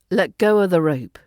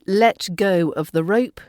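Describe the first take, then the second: First: The word 'of' is reduced to a schwa. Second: The word 'of' is said with a full vowel.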